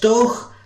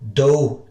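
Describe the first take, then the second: First: It ends in a rough throat-clearing 'ch'. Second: It ends in an open 'oo' vowel. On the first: The speaker calls it right. "like clearing your throat when you really hate to" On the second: The speaker calls it wrong. "it's no do"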